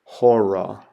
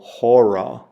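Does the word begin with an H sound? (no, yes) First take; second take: yes; yes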